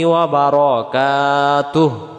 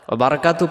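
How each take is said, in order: First: The phrase ends with a final hu syllable. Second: The phrase ends without the final hu syllable. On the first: The speaker calls it right. "হবে ওয়া রাহমাতুল্লাহি ওয়া বারাকাতুহু" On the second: The speaker calls it wrong. "আমরা এটাকে বলে ফেলি"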